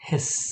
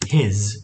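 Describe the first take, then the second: First: The word ends with an s sound. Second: The word ends with a z sound. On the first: The speaker calls it wrong. "આને કહેવાય છે સ, તો આનો ઉચ્ચાર થાય છે હિસ" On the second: The speaker calls it right. "Special ઉચ્ચાર"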